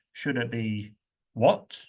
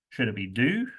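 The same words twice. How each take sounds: First: What do you do, stressing what. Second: Should it be do, stressing do. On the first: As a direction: punch the word what as a question. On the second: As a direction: do stressed with a rising question tune. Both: Shown as a demonstration. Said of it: "Which word do you expect to be stressed?".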